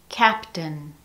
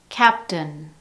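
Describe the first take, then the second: No difference in how they are said.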